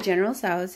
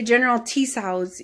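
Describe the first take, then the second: First: Tso's starts without any T sound. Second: Tso's starts with an audible T sound. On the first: The speaker calls it right. "The T is silent" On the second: The speaker calls it wrong. "you don't say General Tso's either"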